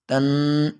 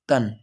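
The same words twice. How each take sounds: First: The word is drawn out and stretched. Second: The word ends crisply without being stretched. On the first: The speaker calls it wrong. "इस अंदाज में नहीं पढ़ना" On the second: The speaker calls it right. "यहाँ पे आवाज जम जाए"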